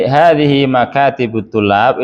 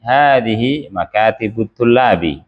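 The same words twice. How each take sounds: First: Hadhihi makatibut tulab rising like a question; asking, not stating; question tune. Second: Hadhihi makatibut tulabi with falling statement tune; calm statement, falling at the end. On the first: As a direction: end "tulab" on an upward question lift. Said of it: "jangan logat bertanya". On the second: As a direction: let "tulabi" fall to close a plain statement. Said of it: "Ini kan mubtada khobar". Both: Shown as a demonstration.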